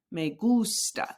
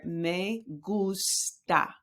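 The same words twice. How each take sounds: First: "Me gusta" slowly, leaning on gus; "Me gusta" joined up, with the emphasis on GUS; stress on GUS. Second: "Me gusta" very slowly, broken into me, gus, ta; teacher's slow model of "Me gusta"; syllable-by-syllable pronunciation. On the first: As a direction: put the weight on the first syllable of "gusta". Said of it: "where you put the emphasis". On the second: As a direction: sound out "Me gusta" one syllable at a time. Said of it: "here's the pronunciation right here". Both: Shown as a demonstration.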